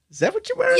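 It is said in a pointed, snide tone.

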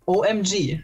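The letters are spoken with English letter names.

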